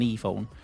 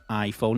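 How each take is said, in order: First: The first vowel is an 'ee' sound. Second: The first vowel is an 'eye' sound. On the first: The speaker calls it wrong. "it's not an e-phone" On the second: The speaker calls it right. "I is I and not E"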